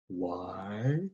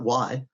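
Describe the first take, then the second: First: The word is drawn out slowly and deliberately. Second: The word is said quickly and lightly. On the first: The speaker calls it right. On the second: The speaker calls it wrong.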